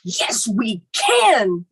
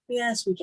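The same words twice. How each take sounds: First: It is said forcefully, with strong drive. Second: It is said flatly, without much force. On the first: The speaker calls it right. "That that tenacity" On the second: The speaker calls it wrong. "It's not"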